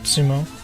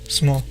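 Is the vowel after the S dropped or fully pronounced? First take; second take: fully pronounced; dropped. First: The vowel after the S is fully pronounced. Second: The vowel after the S is dropped. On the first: The speaker calls it wrong. "in the U S we say sumo" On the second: The speaker calls it right. "just kind of like S M O"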